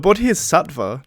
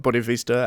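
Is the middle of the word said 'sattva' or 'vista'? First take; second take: sattva; vista. First: The middle of the word sounds like 'sattva'. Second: The middle of the word sounds like 'vista'. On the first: The speaker calls it right. "the Bodhisattva" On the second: The speaker calls it wrong. "not Bodhivista as I was pronouncing it"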